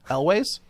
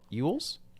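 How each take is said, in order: First: The name sounds like 'Elways'. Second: The name sounds like 'Ewells'. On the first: "Is it Elways?" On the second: "It used to be Ewells"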